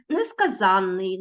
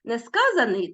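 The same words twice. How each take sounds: First: Несказанний stressed late, on ЗАН; stress on the suffix. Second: Несказаний stressed on the middle syllable КА; stress on the root. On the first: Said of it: "наголос паде в основному на закінчення". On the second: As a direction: say Несказаний as не-СКА-заний. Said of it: "за наголосом". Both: Shown as a demonstration.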